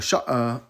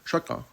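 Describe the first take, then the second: First: The middle consonant is a glottal stop. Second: The middle consonant is a k-like sound. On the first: This is the Egyptian Arabic way. "a sha'a is is Egyptian Arabic" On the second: This is how speakers of other dialects say it. "how other people would say it with a cough"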